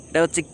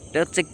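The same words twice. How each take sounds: Both takes have the same delivery.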